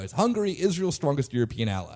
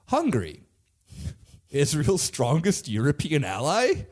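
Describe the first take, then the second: First: It is said as a statement, falling. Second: It is said as a question, rising.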